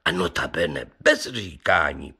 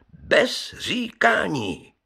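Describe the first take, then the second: First: Said in the usual way. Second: Bez říkání drawn out slowly, pitched much higher; emphatic repeat. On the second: Acted. Brewer driving home his point to the gentlemen, slow high emphasis.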